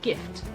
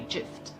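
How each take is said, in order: First: The word begins with a hard G sound. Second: The word begins with a J sound. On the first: The speaker calls it right. "Like the word gift" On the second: The speaker calls it wrong. "we don't say gift"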